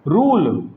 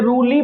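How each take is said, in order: First: The word ends on the 'l' consonant. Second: The word ends with an added 'ee' vowel. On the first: The speaker calls it right. "ये होता है आपका रूल" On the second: The speaker calls it wrong. "ना रूली ना रूले"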